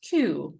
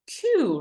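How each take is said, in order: First: "Queue" repeated lower, with a calm falling close; repeating the word. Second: "queue" said high and stressed, falling at the end; teaching the word. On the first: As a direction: echo "Queue" low and settled for students to copy. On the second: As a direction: present "queue" with a high emphatic fall. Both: Shown as a demonstration. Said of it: "they say".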